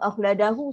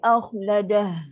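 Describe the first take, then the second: First: The word ends with an added u vowel. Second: The word ends on a breathy h sound. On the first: The speaker calls it wrong. "Akhladahu salah" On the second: The speaker calls it right. "Kalau berhenti, akhladah. Dan ada bunyi angin"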